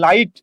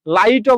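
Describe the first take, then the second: First: "লাইট" as la-it, stopping on the t; correct closed ending. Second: "লাইটও" as la-i-to, with an o after the t; wrong final vowel. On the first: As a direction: end "লাইট" on a clean t with no vowel. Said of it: "আপনি বলেন কি লাইট". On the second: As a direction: add an open o to the end of "লাইটও". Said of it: "লাইটও বলেন না". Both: Shown as a demonstration.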